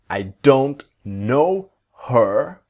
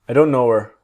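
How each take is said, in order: First: The h in 'her' is pronounced. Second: The h in 'her' is dropped.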